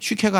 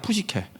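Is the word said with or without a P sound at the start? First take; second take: without; with. First: The word begins without a P sound. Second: The word begins with a P sound. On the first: "쉬케가 아니라" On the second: "이렇게 P 발음을 다 해주거든요"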